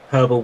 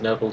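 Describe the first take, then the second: First: The word starts with a clear H sound. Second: The word starts without an H sound. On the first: The speaker calls it right. "where you pronounce the H, is how you meant to say it" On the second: The speaker calls it wrong. "I don't like saying herbal like that"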